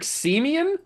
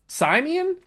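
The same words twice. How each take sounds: First: SIMEON as SEE-mee-un, pitched up as a question; unsure name reading. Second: SIMEON as SIGH-mee-un, high rising question; alternative name reading. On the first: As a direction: say Simeon with a long "see" up front, rising. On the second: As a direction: say Simeon starting like "sigh", pitched way up. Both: Shown as a demonstration. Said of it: "I don't even know".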